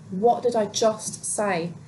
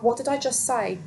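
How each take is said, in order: First: "What did I just say" slowly, each word weighted; emphatic repeat. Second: Said in the usual way. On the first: Real, not acted. Reader reminding viewers of the warning, slow and pointed "What did I just say".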